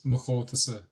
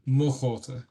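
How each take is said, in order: First: Said in the usual way. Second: "mo" given the emphasis, as English stresses "my"; weight on "mo" instead of an ending on "chóta". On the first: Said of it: "exactly as they said themselves". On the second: Shown as a demonstration. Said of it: "you wouldn't emphasize the word mo".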